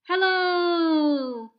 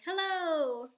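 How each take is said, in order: First: The voice sounds echoey and slightly deeper than normal. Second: The voice sounds plain, without echo or added depth.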